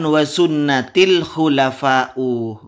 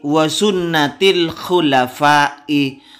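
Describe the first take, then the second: First: The last word ends with a u vowel. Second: The last word ends with an i vowel. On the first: The speaker calls it wrong. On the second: The speaker calls it right. "harus kasroh"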